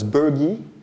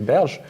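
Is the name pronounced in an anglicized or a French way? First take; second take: anglicized; French. First: The name is pronounced in an anglicized way. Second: The name is pronounced the French way. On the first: This is how others commonly say the name. The speaker calls it wrong. "each time I heard his name pronounced, it was Bergy" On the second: This matches the mathematician's own language. The speaker calls it right. "he's actually a French mathematician ... we should say Berge"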